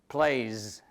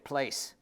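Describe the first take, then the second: First: The word ends with a z sound. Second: The word ends with an s sound. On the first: The speaker calls it right. "so you add z there" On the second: The speaker calls it wrong. "You don't say place"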